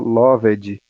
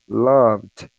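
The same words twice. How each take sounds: First: The final D is fully released, not cut. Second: The final D is cut short and clipped. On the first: The speaker calls it wrong. "Não vai falar loved" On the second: The speaker calls it right. "Você meio que dá um corte ali no D"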